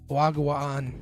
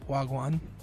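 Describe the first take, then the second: First: The second vowel is drawn out long. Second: The second vowel is short. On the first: This is how a similar Filipino word sounds. "In Filipino, it's wagwaan because there's two A's" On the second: This is the Jamaican greeting meaning what's up. "I'm probably butchering it"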